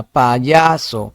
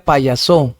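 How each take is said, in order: First: PAYASO with a drawn-out, stressed YA; ударение на я. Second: "payaso" stressed on the final SO; stress on last syllable. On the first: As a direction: stretch the middle syllable YA in "payaso". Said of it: "más intensa". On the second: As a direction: push the accent onto SO at the end of "payaso". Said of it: "Si fuese en so". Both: Shown as a demonstration.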